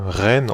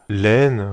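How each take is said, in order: First: "Ren" with a French R; R pronunciation. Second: "Len" with an L for the R; Japanese L pronunciation. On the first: Reviewer unsure of a character's name, "Ren" begun with R. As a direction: say "Ren" starting on R, not L. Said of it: "je sais pas comment ça se prononce". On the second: Reviewer naming a manga character, "Len" begun with L. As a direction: say "Len" starting on an L sound. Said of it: "les R se prononcent L en japonais". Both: Shown as a demonstration.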